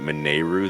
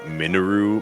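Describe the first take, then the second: First: The middle vowel is drawn out and stressed. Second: The middle vowel is quick and reduced. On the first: The speaker calls it wrong. "I put a lot of emphasis on that E" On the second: The speaker calls it right. "she pronounces it way more like mineral"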